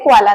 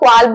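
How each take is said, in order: First: The word is said with an L sound. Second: The word is said without an L sound. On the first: The speaker calls it wrong. "क्वाला नहीं" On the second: The speaker calls it right. "एल silent है, सो आपको क्वाल बोलना है"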